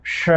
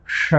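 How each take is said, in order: First: श with the tongue flat against the hard palate, a soft sh; palatal sha. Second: श with the tongue curled back to the roof, a hollow sh; retroflex sha. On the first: Teacher demonstrating the palatal श for students. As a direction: say श as the palatal sh, as in शलगम. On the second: Teacher contrasting the retroflex ष with the palatal श. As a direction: say श as the retroflex ष of षटकोण. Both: Shown as a demonstration. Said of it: "लोग इसका उच्चारण पृथक नहीं कर पाते".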